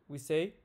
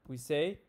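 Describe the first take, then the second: Both takes have the same delivery.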